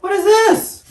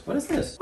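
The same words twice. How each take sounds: First: Very high, loud playful squeal; squeaky mock amazement. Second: Very high, soft little squeak; squeaky mock wonder. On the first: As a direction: repeat it louder in a piercingly high voice. Repeats the surprise, louder. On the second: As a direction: ask in a tiny high voice, playfully puzzled. Playful surprise at booklet find.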